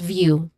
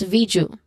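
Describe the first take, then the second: First: A soft y sound, as in yes, follows the v. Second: A hard j sound, as in jam, follows the v. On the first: The speaker calls it right. "That's view" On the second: The speaker calls it wrong. "you might pronounce it as Viju, which is of course not correct"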